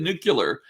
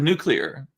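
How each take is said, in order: First: The word is said the Texas way. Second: The word is said the standard way. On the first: "I said this is a Texas thing" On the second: "instead of"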